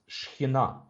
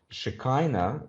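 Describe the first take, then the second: First: It is said the Hebrew way. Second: It is said the common anglicized way. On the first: The speaker calls it right. "it's Shekhinah in Hebrew" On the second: The speaker calls it wrong. "that's wrongly uh, pronounced"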